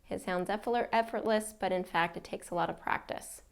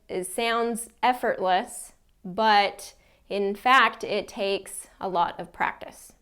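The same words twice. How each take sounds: First: It runs on in one low, flat stretch. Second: It is chopped into short chunks with frequent breaks. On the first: "not a lot of pausing or breaks in between sentences" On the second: "that's an example of just cutting it up too much"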